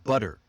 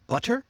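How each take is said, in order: First: BUTTER with the T softened almost to a D, falling; relaxed American butter, T like a quick D; flap T. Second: BUTTER with a crisp T, higher, questioning rise. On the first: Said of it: "sound that's almost like D". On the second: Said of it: "Try it one way". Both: Shown as a demonstration.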